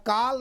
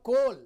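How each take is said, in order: First: The vowel is an open aa sound. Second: The vowel is a closed o sound. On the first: "न काल" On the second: "न कोल"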